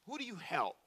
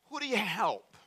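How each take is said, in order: First: Who do you help? again, softer, weight on Who; softer repeat. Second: Who do you help? asked higher, pressing; stressed question. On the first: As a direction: let it sink in quietly. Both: Acted. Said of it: "repeated question".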